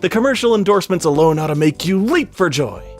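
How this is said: It is said with lots of excitement.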